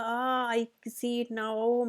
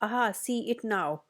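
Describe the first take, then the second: First: Drawn-out mock groan while stretching, very slow. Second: Said in the usual way. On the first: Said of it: "इतना कराहते हुए कहा". (कराहते हुए, खिंचा हुआ और बहुत धीमा) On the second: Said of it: "फिर क्या कहता है".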